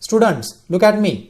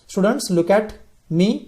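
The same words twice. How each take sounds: First: It is said loudly, with a raised voice. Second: It is said at a normal, soft volume.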